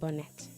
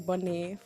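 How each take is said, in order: First: The ending is said the plain English way. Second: The ending is said with a French sound. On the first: "I feel like I pronounced it wrong" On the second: "supposed to be bonnet for some reason"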